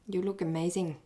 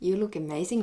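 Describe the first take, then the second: First: It sounds grudging and jealous. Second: It sounds playful and flirtatious. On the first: The speaker envies the other person. "from jealousy" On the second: The speaker is flirting with the person. "the third one would be part of the flirting"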